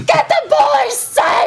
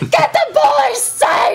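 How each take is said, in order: First: It is shouted with strong passion. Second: The same.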